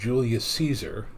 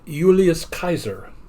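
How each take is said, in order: First: The name starts with a J sound. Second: The name starts with a Y sound. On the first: "the actual pronunciation of" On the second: "since they didn't actually have a J sound"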